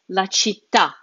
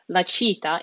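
First: Città with the accented à punched; final stress on città. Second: Città stressed early, on "cit"; wrong stress on città. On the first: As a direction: land the weight on the last syllable of città. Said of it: "that's where the stress falls". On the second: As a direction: put the weight on the first syllable of città, not the final à. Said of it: "So it's not". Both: Shown as a demonstration.

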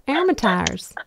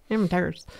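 First: "Amateurs" with the end said like "tires"; mispronounced amateurs. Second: "Amateurs" repeated after the coach, the end still close to "tires"; attempted correction. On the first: Real, not acted. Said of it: "No, you keep saying tires". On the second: Shown as a demonstration. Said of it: "You gotta say am".

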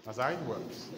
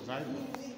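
First: Said in the usual way. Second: Much higher, singsong echo of the line; playful high repeat. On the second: Shown as a demonstration. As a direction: toss it back up high, teasing. Teacher repeats, sing-song higher.

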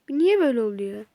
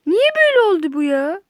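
First: Said in the usual way. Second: Higher and louder, whining at the game; loud frustrated wail; exasperated outcry. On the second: Real, not acted. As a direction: cry it out in frustration. Repeats complaint, second louder.

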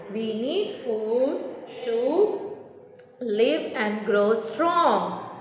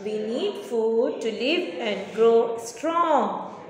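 First: Slow answer split into chunks; slow dictation. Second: Slow, clear model answer; dictation pace. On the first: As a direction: break it up so pupils repeat. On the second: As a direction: say it slowly for pupils to copy. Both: Shown as a demonstration. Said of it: "You have to say".

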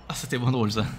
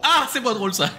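First: Said in the usual way. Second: High, loud wry groan. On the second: Real, not acted. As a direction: wince up high.

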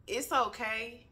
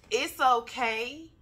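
First: Said in the usual way. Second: "It's okay" said slowly and louder, pitched higher, with weight on "It's"; leaning in, emphatic. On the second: Shown as a demonstration. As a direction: lean in and press "It's okay" slow and loud, stressing "It's". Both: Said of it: "Let me get close".

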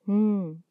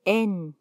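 First: N as a held hum "nnn"; sustained n, no vowel, for N; letter sound N. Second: Said in the usual way. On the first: Shown as a demonstration. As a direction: hum the bare N consonant. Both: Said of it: "se pronuncia".

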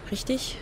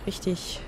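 First: RICHTIG softly asked with rising pitch; questioning. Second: RICHTIG softly stated without a rise; self-confirming. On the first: Player checking a guess with themself, questioning. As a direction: say RICHTIG as a quiet question, lifting the end. Asks themself, then answers. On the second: Player answering their own question, quietly confirming. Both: Real, not acted.

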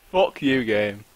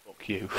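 First: Swearing through a laugh; laughing curse at the game. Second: Said in the usual way. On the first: Real, not acted.

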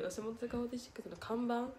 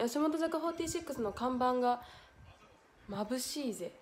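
First: 看板 rising in puzzlement, softer; puzzled reread. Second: Said in the usual way. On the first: Shown as a demonstration. Streamer rereading a baffling comment, puzzled. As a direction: reread it confused, questioning.

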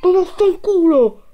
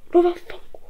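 First: High shouted curse; explosive italian cursing. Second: High breathless whispered curse. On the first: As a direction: bellow the curse, still shaken. Jump scare aftermath. (imprecazione urlata ad alta voce) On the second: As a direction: hiss it under the breath. Same curse, dropped. (imprecazione sussurrata) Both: Real, not acted.

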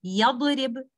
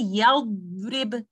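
First: "yadrib" with the dad bounced, like "yadorib". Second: Slow "yadrib" with a held, unbounced dad; dad given time. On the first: Teacher shows what to avoid, "yadrib" with a bouncing dad. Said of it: "So instead of saying". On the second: Teacher gives the fix for bouncing, "yadrib" with time on the dad. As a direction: linger on the dad in "yadrib" before the r. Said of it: "so you say". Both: Shown as a demonstration.

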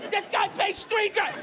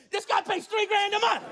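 First: Much higher, slowed, laughing in disbelief; slower laughing shout. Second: Much higher outraged yell, every word hammered; disbelieving shout. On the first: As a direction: drag it out, cracking up at the price. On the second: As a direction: yell it to the whole empty street. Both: Retold or imitated. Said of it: "He's just shouting it".

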